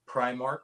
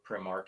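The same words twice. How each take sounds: First: The word is said in the ordinary pronunciation. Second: The word is said in an unusual pronunciation.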